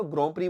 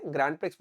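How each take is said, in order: First: "ग्रैंड प्री" with a silent x, ending on a long ee; correct Grand Prix pronunciation. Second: "ग्रैंड प्रिक्स" as an English grand plus pricks; wrong Grand Prix pronunciation. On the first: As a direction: say "ग्रैंड प्री" French-style as "gron pree". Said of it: "इसको ग्रैंड प्री बोलना". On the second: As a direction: say "ग्रैंड प्रिक्स" with the final x sounded. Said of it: "ग्रैंड प्रिक्स मत बोलना". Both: Shown as a demonstration.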